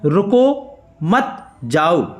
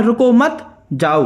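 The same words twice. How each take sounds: First: रुको set apart by a pause, then मत and जाओ slowly; slow demo of a comma after रुको. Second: रुको मत run together, pause, then जाओ; pause after मत. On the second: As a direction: join रुको to मत and break before जाओ. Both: Shown as a demonstration. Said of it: "थोड़े समय के लिए रुकना".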